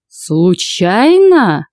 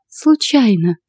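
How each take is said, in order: First: Very drawn-out, swooping disbelief; incredulous echo. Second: Said in the usual way. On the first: A narrator's reading. Husband advancing on culprit, incredulous. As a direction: stretch the word right out in outrage. Husband threateningly echoes the excuse.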